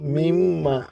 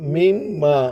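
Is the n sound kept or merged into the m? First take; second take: kept; kept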